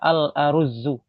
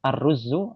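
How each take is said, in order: First: The word is said as al-aruzu, with added hamza. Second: The word is said as ar-ruzu, without hamza. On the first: This form is also standard but less understood. "ditambahi dengan hamzah aruzu" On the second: This is the form used in some countries. "di sebagian negara mereka menyebutnya ruzu"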